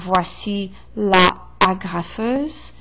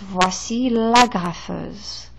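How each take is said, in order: First: The article's vowel is kept before the noun. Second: The article's vowel is dropped before the noun. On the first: The speaker calls it wrong. "Instead of saying voici la agrafeuse, that would create too much uh, uh, uh" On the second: The speaker calls it right. "So it's voici l'agrafeuse"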